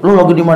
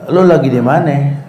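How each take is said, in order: First: The question is asked in a harsh, aggressive tone. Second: The question is asked in a calm, friendly tone. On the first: The reader's own anger makes it seem hostile. "Karena dia lagi emosi, ... ngegas nih orang" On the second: A plain, well-meant question. "temennya nanya baik-baik"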